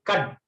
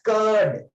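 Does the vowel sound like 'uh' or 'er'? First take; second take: uh; er. First: The vowel is a short 'uh' sound. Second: The vowel is a long 'er' sound. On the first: The speaker calls it wrong. "We never say" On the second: The speaker calls it right. "We always say pronounced as curd"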